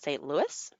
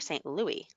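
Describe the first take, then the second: First: The final s sound is pronounced. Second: The final s sound is silent. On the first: "Yes S" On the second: "no S"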